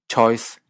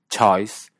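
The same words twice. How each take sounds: First: The diphthong starts with a closed vowel. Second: The diphthong starts with an open vowel. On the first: "con una vocal cerrada" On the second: "con una vocal abierta"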